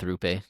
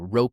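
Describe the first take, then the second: First: The name has an 'oo' vowel, like Rupe. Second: The name has an 'oh' vowel, like Rope. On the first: The speaker calls it wrong. "Rupe is more fun to say" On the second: The speaker calls it right. "it's Rope"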